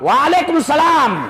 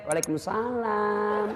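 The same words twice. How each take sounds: First: It is said in a firm, curt voice. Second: It is said in a soft, sweet voice.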